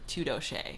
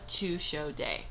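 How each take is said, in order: First: The words are slurred together into one blurred word. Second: Each word is said clearly and separately.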